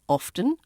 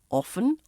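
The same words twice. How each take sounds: First: The T sound is pronounced. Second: The T sound is left out. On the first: "whichever you prefer" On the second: "You can drop the T in often"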